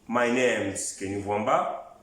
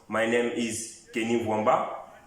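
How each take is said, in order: First: Name and is merge into one syllable, name's. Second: The words name and is are said separately. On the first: This is the informal form used in speech. "my names est utilisé à la forme orale" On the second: This is the formal form used in writing. "la forme formelle qui est my name is"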